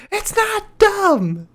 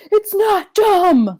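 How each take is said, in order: First: Very high, slow squeaky yell; higher pitched voice. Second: Slow drawn-out high yell; Seth Rollins scream. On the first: Shown as a demonstration. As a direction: squeak it out like the Keebler Elf. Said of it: "a higher pitched voice". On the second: Retold or imitated. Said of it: "Seth Rollins screaming".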